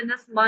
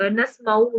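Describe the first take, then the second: First: नस्मा cut off without the ऊ ending; silent final letter. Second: नस्माऊ with the long ऊ ending sounded; full final vowel. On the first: Teacher showing the reading to avoid, नस्मा without final ऊ. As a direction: say नस्मा, dropping the final vowel. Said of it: "साकिन नहीं करना". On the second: Teacher correcting a misreading, नस्माऊ with final ऊ voiced. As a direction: say नस्माऊ slowly, voicing the final ऊ. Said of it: "इसको हमने नस्मा नहीं पढ़ना". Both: Shown as a demonstration.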